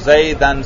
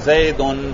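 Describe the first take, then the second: First: The ending is said with a before n. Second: The ending is said with u before n. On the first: It is in the accusative case. "زبر پڑھیں گے" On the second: It is in the nominative case. "اس پر پیش پڑھیں گے"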